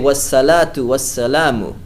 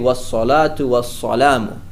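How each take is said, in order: First: Both s sounds are light and plain. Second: Both s sounds are heavy and emphatic. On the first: "they're stuck in seen mode" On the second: "the two sads"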